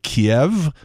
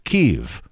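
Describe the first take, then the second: First: The name is said in its Russian form. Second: The name is said in its Ukrainian form. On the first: The speaker is on Russia's side. The speaker calls it wrong. "the Russian pronunciation of that city is more like Kiev" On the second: The speaker is on Ukraine's side. The speaker calls it right. "the Ukrainian pronunciation is Kyiv"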